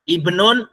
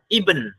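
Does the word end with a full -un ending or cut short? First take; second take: full ending; cut short. First: The word ends with a full -un syllable. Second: The word ends abruptly on the final consonant. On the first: This form is rarely used in everyday speech. "jarang huruf akhirnya ditanwinkan" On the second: This is how Arabs commonly say it. "huruf terakhir jarang dihidupkan. Seringnya apa? Disukunkan"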